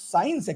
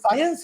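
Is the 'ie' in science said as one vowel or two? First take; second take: one vowel; two vowels. First: The 'ie' is said as one vowel. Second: The 'ie' is said as two vowels. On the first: The speaker calls it wrong. "we don't pronounce science actually right. It is not correct word" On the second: The speaker calls it right. "Science is correct"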